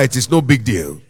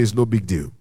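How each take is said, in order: First: It is said loudly. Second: It is said at normal volume.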